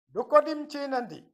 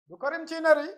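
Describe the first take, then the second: First: Said slowly, with clear nd sounds. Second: Said fast, with the nd sounds rolled like r. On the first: "ça montre que c'est bien ndi" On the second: "c'est souvent roulé comme des R. C'est dans le parler, c'est rapide"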